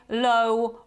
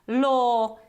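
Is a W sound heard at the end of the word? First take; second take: yes; no. First: A W sound is pronounced at the end. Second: No W sound is pronounced at the end. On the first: The speaker calls it wrong. "you can't say" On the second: The speaker calls it right. "We don't pronounce this w at the end"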